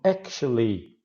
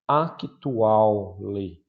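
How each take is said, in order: First: It is said with English pronunciation. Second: It is said with Portuguese spelling-based pronunciation. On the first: The speaker calls it right. "se você pronunciar certinho" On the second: The speaker calls it wrong. "como você leria no português"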